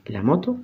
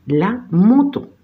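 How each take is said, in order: First: Said in the usual way. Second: "la moto" higher and slow, stressed on the final to; French pronunciation. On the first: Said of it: "como en español". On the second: Shown as a demonstration. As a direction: model "la moto" in French, drawn out. French model, then Spanish equivalent. ("la moto" en francés, lento y con acento final)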